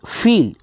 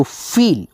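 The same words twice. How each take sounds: First: फील with a long drawn-out ई; stretched vowel. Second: Said in the usual way. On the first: Shown as a demonstration. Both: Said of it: "उच्चारण दोस्तों खींच करके है".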